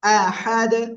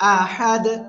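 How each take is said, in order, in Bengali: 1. শব্দটি শুধু ব্যঞ্জনে শেষ হয়। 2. শব্দটি শুধু ব্যঞ্জনে শেষ হয়।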